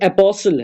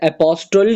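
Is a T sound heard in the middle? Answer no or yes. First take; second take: no; yes. First: No t sound is heard after the s. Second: A t sound is heard after the s. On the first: The speaker calls it right. "ये एपोसल है" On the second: The speaker calls it wrong. "एपोस्टल नहीं है लफ्ज"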